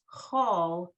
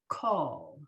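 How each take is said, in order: First: The word begins with a soft ch sound. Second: The word begins with a hard k sound. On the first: The speaker calls it right. "so it's call" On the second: The speaker calls it wrong. "not call"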